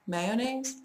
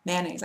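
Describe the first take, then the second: First: "Mayonnaise" in three syllables, MAY-oh-naze; higher, questioning "Mayonnaise" with the middle o; full mayonnaise. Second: "Mayonnaise" in two syllables, MAN-naze; own mayonnaise. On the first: Speaker testing the unused version, may-oh-naze. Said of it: "I say mayonnaise". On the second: Speaker giving own word, mayonnaise as man-naze. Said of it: "just like that". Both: Shown as a demonstration.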